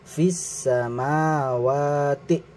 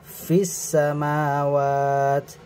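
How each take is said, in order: First: The word ends with a vowel after t. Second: The word ends on the t consonant. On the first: The reciter continues into the next word. "jika wasol dibaca" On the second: The reciter stops after this word. "Jika waqaf dibaca"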